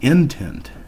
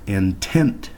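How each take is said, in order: First: The stress is on the first syllable. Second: The stress is on the second syllable. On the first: The speaker calls it wrong. "That pronunciation would have the accent mark after the I N" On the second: The speaker calls it right. "with the stress or with the accent on the second syllable"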